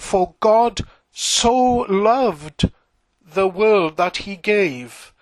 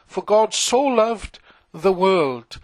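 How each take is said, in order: First: Proclaiming the verse slowly with weight on "God"; emphatic slow scripture reading. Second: Said in the usual way. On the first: Shown as a demonstration. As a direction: lean hard on "God" and "so loved", taking your time. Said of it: "look out for the emphasis here on God's love". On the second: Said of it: "the emphasis here on God's love".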